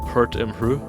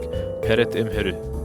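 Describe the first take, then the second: First: Consonants stand together without added vowels. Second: Extra vowels are inserted between the consonants. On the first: This is the original Egyptian phrase. "the original phrase is like" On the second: This is the Japanese adaptation of the phrase. "the Japanese phrase they change it to like"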